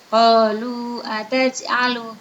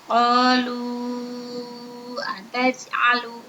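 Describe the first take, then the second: First: The long vowel is held for two beats. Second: The long vowel is held for five beats.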